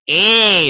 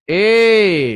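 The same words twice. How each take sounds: First: The vowel has a strong, bright, brassy twang. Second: The vowel has a slight, barely noticeable twang. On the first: "is distinct" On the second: "is subtle"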